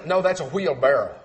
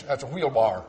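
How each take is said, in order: First: "wheelbarrow" said in full, WHEEL-bare-oh; "wheelbarrow" with a clear "bare-oh" ending; corrected pronunciation. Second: "wheelbarrow" squashed to "wheel-bar"; "wheelbarrow" with the last syllable swallowed, WHEEL-bar; folksy pronunciation. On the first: Acted. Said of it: "You might say". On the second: Shown as a demonstration. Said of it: "You might say, "No, that's a wheelbarrow".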